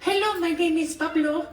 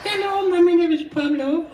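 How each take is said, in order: First: High squeaky bird voice; chirpy little crow voice; Pablo's voice. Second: High, louder squeaky bird voice; Pablo's voice. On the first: Host demonstrates the ocean crow's high voice. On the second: Host repeats the crow voice, higher and louder. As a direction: squawk it like a little crow. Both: Shown as a demonstration. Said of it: "his voice sounds like this".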